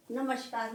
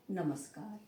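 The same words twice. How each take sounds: First: नमस्कार with SH in place of S; wrong pronunciation. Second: नमस्कार softly, with a clean S; correct pronunciation. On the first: Teacher rejecting the common error, नमस्कार said with a sh sound. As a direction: say नमस्कार as "namashkar". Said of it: "नमस्कार नहीं". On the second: Teacher confirming the right word, नमस्कार softer with a plain s. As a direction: say नमस्कार as "namas-kaar", quietly. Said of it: "और सही क्या है". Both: Shown as a demonstration.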